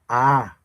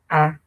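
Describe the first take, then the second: First: The vowel is said on a gliding tone. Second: The vowel is said on a mid tone. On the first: "glide tone" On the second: "mid tone"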